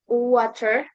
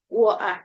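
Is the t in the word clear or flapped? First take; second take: flapped; clear. First: The t is a quick flap, like d. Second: The t is pronounced as a clear t. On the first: "in American English, water is often pronounced with a flap T, sounding like water" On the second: "in British English, T is usually written or not clearly pronunciation. Uh, for example, water, like that"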